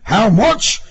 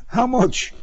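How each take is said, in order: First: Loud, high, indignant shout; outraged cry. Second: High, tentative voice; meek high query; timid question. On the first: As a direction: throw it back as an outrage. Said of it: "the officer cried". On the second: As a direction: ask it nervously, without force. Timid driver asks about money. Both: A narrator's reading.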